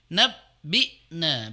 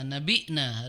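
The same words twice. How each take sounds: First: The 'b' sound is held and doubled. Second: The 'b' sound is short and single. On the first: The speaker calls it right. "harusnya ... Baknya didobelkan" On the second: The speaker calls it wrong. "kurang tasdid sehingga terbaca"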